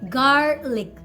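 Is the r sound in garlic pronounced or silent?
pronounced. The r sound after the vowel is pronounced. "if you're working on your American pronunciation, then call it garlic"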